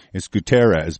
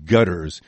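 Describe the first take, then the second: First: "Guterres" said properly, goo-TEH-res; correct Guterres. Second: "Gutters" spat out as a put-down, first syllable rhyming with but; mocking nickname Gutters. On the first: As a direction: give "Guterres" its real three syllables, stress in the middle. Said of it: "but we're gonna call him Gutters". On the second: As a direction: say "Gutters" like the word gutters, GUT-ters, a deliberate sneer. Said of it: "that's what I'm gonna call him". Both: Shown as a demonstration.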